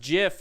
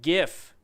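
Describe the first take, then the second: First: The word begins with a soft J sound. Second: The word begins with a hard G sound. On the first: The speaker calls it right. "It is pronounced Jif, Just like the peanut butter" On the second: The speaker calls it wrong. "not GIF"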